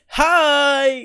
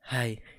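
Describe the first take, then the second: First: It is said in an extravagant, lively way. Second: It is said in a flat, lame way.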